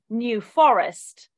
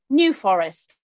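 First: The words are stressed the English way. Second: The words are stressed the American way. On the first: "But we in England would say New Forest" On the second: "I think in America, you put the inflection on a different word"

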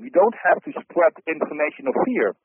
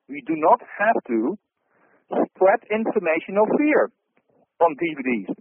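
First: It is said at normal speed. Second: It is said slowly.

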